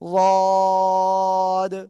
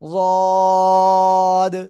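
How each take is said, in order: First: The first consonant is a heavy emphatic d. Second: The same.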